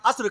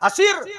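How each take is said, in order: First: The s and r are joined without a vowel. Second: An 'i' vowel separates the s and r. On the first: The speaker calls it right. "अस्र कहिए बाकायदा" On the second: The speaker calls it wrong. "असिर नहीं, असिर ना कहा कीजिए"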